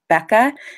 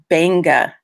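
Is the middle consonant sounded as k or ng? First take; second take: k; ng. First: The middle consonant is a k sound. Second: The middle consonant is an ng sound. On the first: The speaker calls it wrong. "some people would say Becca" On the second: The speaker calls it right. "in Fijian, Q's are pronounced N Gs"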